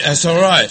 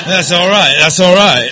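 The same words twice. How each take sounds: First: Said in the usual way. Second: Laughing. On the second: Real, not acted. Calming the laughing crowd.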